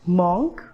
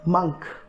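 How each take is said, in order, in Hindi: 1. यह स्वर 'on' में 'o' जैसा सुनाई देता है। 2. यह स्वर 'up' में 'u' जैसा सुनाई देता है। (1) "ये सही नहीं है" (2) "करेक्ट प्रोनाउंसिएशन है"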